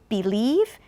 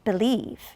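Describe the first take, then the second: First: The first vowel is a full, clear vowel. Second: The first vowel is reduced to a weak schwa. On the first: "some people will say believe" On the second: "but most people say ba"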